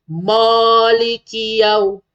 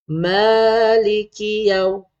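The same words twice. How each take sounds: First: "Maliki" with a rounded, thick "mo"; wrong vowel. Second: "Maliki" with a light, open "ma", drawn out; soft vowel. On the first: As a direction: recite "Maliki" as "Moliki", drawn out. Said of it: "bukan ma". (baca "Maliki" dengan bunyi "mo" tebal) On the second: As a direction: recite "Maliki" slowly with thin "ma". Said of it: "Lembut je sebutan mim ni". (baca "Maliki" lembut, "ma" nipis) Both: Shown as a demonstration.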